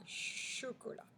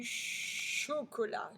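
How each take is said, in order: First: CHOCOLAT softer, ch held a little; softer repeat. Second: CHOCOLAT with a long ch at full voice; elongated initial ch. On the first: Teacher repeats the word, "chocolat" softer with marked ch. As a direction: quietly repeat "chocolat", leaning on ch. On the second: Teacher has pupils hear ch, "chocolat" stretched at the start. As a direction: hold the "ch" of "chocolat". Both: Shown as a demonstration. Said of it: "on entend le che".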